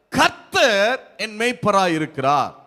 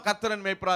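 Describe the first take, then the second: First: The stress is on the first word, கர்த்தர். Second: It is said plainly with no special stress.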